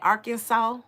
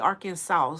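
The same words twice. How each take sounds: First: The last syllable sounds like 'saw'. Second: The last syllable sounds like 'sauce'. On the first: "Like I saw you"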